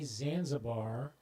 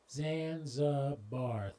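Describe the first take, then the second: First: Said in the usual way. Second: Zanzibar drawn out slowly, syllable by syllable; Zanzibar, each of its three syllables slow and separate. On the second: Shown as a demonstration. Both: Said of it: "three syllables".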